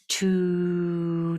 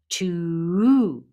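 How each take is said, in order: First: It is said softly and gently. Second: It is said harshly and forcefully.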